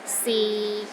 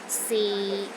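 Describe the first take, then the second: First: The pitch stays low and level. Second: The same.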